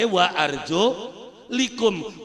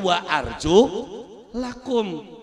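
First: The vowel after 'arjul' is 'i'. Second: The vowel after 'arjul' is 'a'. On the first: The feet only need to be wiped. "Anak sing wacane" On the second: The feet must be washed. "Baka Quran kene nganggone"

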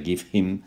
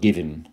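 First: The h sound of him is clearly heard. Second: The h sound of him is not heard. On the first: "es más formal" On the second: "la H la verdad es que es muda"

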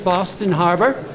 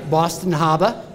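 First: It is said in a standard accent. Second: It is said in a local Boston accent.

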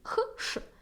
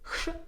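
First: The two sounds are said slowly and apart. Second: The two sounds are said quickly and joined. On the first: "Спробуємо цього два звуки" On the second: "І тепер швидше"

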